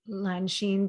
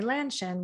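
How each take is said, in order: First: The name is said with Mandarin Chinese sounds. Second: The name is said with English sounds. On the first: This is the name as it really sounds. "so now it's Lanshin" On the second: This is how others usually say the name. "people will say Lanshin, which is fine"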